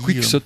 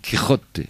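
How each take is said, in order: First: The name is said with a French-style pronunciation. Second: The name is said with a Spanish-sounding pronunciation. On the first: This is how the other person says it. "Tu dis Quicksot" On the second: This is how the speaker says it. "moi je dis Quirote"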